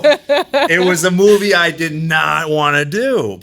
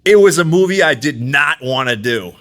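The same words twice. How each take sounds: First: Slow, laughing through it, higher; laughing restatement. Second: Said in the usual way. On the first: Shown as a demonstration. Guest repeats to podcast hosts, slow and laughing. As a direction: repeat it slowly while laughing.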